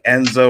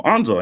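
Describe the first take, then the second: First: Enzo with an E as in bed, the usual mistake; Enzo, first vowel as in bed; mispronouncing the name as Enzo; name said wrong. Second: Anzo with a clear open A, said the correct way; Anzo, first vowel as in father; the right way to say Anzo; name said right. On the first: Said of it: "Usually when people call me". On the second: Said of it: "he said my name right". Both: Retold or imitated.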